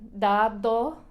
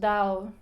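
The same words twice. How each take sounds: First: The second d is strong and hard. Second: The second d is soft and light. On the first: The speaker calls it wrong. "que suena muy raro y muy um, fuerte" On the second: The speaker calls it right. "decimos dado"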